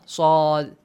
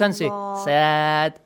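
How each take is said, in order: First: The vowel is heavy, with the mouth open vertically. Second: The vowel is light, with the lips spread. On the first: The speaker calls it right. "Like fish lips... Like vertically" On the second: The speaker calls it wrong. "This is wrong"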